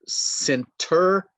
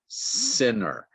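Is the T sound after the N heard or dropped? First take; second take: heard; dropped. First: The T after the N is pronounced. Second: The T after the N is dropped.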